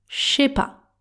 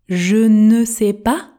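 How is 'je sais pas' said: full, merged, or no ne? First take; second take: merged; full. First: "Je" and "sais" merge into one "ch" sound. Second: Every word is said, including "ne". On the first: "Le son j et s se transforment en ch quand ils entrent en contact" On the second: "donc je ne sais pas devient"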